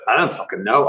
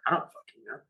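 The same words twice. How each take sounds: First: Said in the usual way. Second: Repeats I don't fucking know under his breath; whispered aside. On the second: Real, not acted. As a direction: mutter it again as a private whisper.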